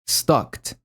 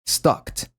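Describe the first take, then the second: No difference in how they are said.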